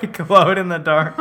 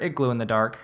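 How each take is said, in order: First: "glowed" said properly as glode, laughing; corrected glowed. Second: "glue" said as gloo instead of glowed; mispronounced glue. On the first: Shown as a demonstration. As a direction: fix it to "It glowed in the dark", laughing. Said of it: "Is that how you say it?". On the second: Real, not acted.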